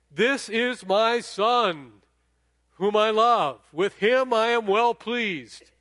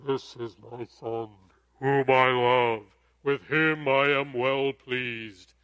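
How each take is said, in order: First: Loud, slow and high proclamation; booming God voice. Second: Slow, deep, booming voice of God. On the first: Retold or imitated. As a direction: proclaim it from heaven. Voice from heaven retold loudly. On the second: Shown as a demonstration. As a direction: intone it like God speaking from heaven. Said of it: "I'll try to do my best God, God voice".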